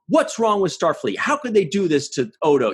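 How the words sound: It sounds accusatory and angry, like Kira.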